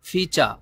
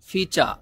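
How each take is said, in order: The two takes are said the same way.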